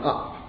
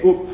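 First: The vowel is a southern open 'strut' vowel. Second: The vowel is a northern rounded 'foot' vowel. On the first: "rather than up" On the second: "someone up in Lancaster, would say up"

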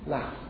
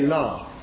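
First: It is said in a northern English accent. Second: It is said in a non-northern English accent. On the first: "You would say laugh" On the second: "If you are a northerner, then you would not transcribe it like this. You would not say laugh"

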